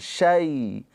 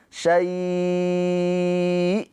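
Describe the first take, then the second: First: The vowel is short and softly pronounced. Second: The vowel is drawn out long. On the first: The reading continues without a pause here. "Harfulin itu hanya dilembutkan" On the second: The reading stops here. "madlinnya itu dibaca panjang"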